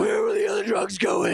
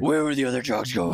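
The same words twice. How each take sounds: First: Hammed-up Batman growl. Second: A hint of gruff Batman; lightly voiced Batman growl. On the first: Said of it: "yours is way better". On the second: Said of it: "used a different voice for the Batman".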